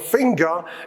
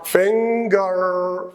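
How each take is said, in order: First: The final r is dropped, ending on a vowel. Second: The final r is pronounced with a curled tongue. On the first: "in British English" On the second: "in American English, this is finger. Remember the retroflex"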